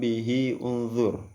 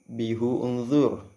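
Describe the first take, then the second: First: The vowel after the h sounds like i. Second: The vowel after the h sounds like u. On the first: "dengan kasrah pada huruf H" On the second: "dengan dhammah pada huruf H"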